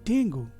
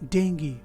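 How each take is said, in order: First: The word ends in an 'oo' sound. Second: The word ends in an 'ee' sound. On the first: The speaker calls it wrong. "क्या ये इस शब्द का सही pronunciation है? नहीं" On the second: The speaker calls it right. "इसका सही प्रोनाउंसिएशन है डेंगी"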